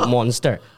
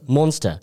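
First: It is said with an Indian accent. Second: It is said with a British accent. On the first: "所以就变monster" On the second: "英国人说的那种monster"

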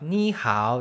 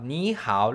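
First: It is said with a heavier American accent. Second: It is said with a fairly native Taiwanese accent.

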